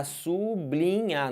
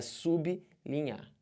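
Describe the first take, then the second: First: SUBLINHAR stretched as su, BLI, nhar; wrong syllable split. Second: SUBLINHAR slowly as su-bi, li-nhar; separated prefix. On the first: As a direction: break sublinhar after su, joining B to L. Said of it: "Dá vontade de botar sublinhar". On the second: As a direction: pause between B and L in sublinhar. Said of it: "Cortem essa vontade". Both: Shown as a demonstration.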